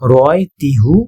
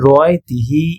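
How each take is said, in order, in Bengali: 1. শেষ অংশটি 'hu' হিসেবে বলা হয়। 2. শেষ অংশটি 'hi' হিসেবে বলা হয়। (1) "রয় তিহু এটার থেকে" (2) "রয় তিহি এটা বেশি শুনতে মানে ভালো লাগে"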